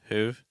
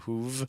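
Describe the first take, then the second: First: The final V sound is weak and faint. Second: The final V sound is strong and clear. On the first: The speaker calls it right. "See how weak the V sound is?" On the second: The speaker calls it wrong. "It's not"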